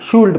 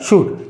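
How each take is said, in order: First: The word is said with an audible L sound. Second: The word is said without any L sound. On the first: The speaker calls it wrong. "आपल्या मराठी भाषा किंवा म्हणा भारतीय लँग्वेजनुसार आपण याला शूल्ड पण म्हणतो" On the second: The speaker calls it right. "ओरिजिनल उच्चार आहे शूट"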